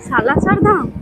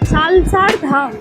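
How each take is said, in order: First: A vowel is heard between the l and s. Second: No vowel is heard between the l and s. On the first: The speaker calls it right. "Yes. এই যে উচ্চারণটা করলে" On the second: The speaker calls it wrong. "একদমই নয়"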